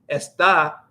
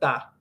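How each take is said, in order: First: Both syllables are said in full. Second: Only the final syllable is said.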